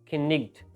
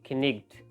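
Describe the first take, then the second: First: The k and gh sounds are pronounced aloud. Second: The k and gh sounds are pronounced aloud.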